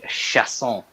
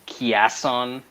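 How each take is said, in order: First: The name starts with an 'sh' sound. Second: The name starts with a 'ch' sound. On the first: The speaker calls it right. "be cultured, people" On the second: The speaker calls it wrong. "why do people pronounce this Chiasson?"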